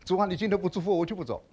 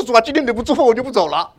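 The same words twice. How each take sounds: First: Softer, pleading 主啊 prayer demo; soft stubborn prayer. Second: Louder 主啊, pressing prayer with a rising 福; earnest insistent prayer. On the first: Shown as a demonstration. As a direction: murmur the bold prayer quietly. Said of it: "有几个弟兄姊妹祷告是这样的". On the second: Retold or imitated. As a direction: plead like refusing to let go. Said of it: "我说".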